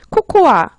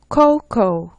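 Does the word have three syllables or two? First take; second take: three; two. First: The word ends with an extra 'a' syllable. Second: The word ends without an extra syllable. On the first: The speaker calls it wrong. "코코아에서 끝에 오는 아자를 빼시면 돼요" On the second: The speaker calls it right.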